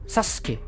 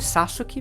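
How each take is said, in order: First: The middle vowel is squeezed out, said quickly. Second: Every syllable is pronounced fully and evenly. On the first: This is how the name is actually spoken. "você fala rápido" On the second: This is how the name is written. "se escreve Sasuke"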